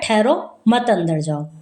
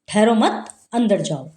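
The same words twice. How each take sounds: First: The words run together with no pause. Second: There is a pause right after the second word. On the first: The intended instruction is unclear. "हमने अल्प विराम हटा दिया" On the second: The listener is told to go inside without waiting. "कह रहा है कि आ जाओ, अंदर आ जाओ"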